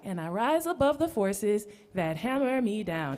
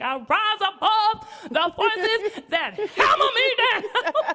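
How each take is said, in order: First: It is said timidly, without force. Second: It is said forcefully, with strong conviction.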